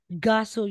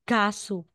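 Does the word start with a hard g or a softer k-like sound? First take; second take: hard g; k-like. First: It starts with a hard, fully voiced g sound. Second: It starts with a sound between k and g. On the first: "yung matigas talaga na ga" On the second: "Para siyang may K pa rin in between sa bigkas ng ka at saka ga"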